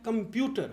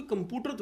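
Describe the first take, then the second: First: कंप्यूटर with a clear "pyoo"; correct pronunciation. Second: कंप्यूटर said as "com-POO-ter"; wrong pronunciation. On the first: Coach models the word correctly, with the u sound. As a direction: say कंप्यूटर as com-PYOO-ter, keeping the u glide. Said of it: "यू का sound". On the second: Coach shows what not to say, wrong pronunciation. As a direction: drop the y glide in कंप्यूटर, plain "poo". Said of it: "हम कोई कंप्यूटर थोड़ी बोलते". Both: Shown as a demonstration.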